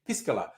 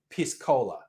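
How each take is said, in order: First: The word is run together smoothly as one. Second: The word is split apart after the first part. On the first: It names the pisco and cola drink. The speaker calls it right. "I'm being very careful to say piscola" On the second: It sounds like a crude word for urine. The speaker calls it wrong. "you want to call your drink with cola piss cola"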